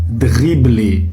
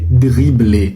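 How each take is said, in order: The two takes are said the same way.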